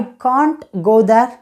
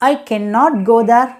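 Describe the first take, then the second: First: 'Can not' is shortened into one syllable. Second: 'Can not' is said as two full words.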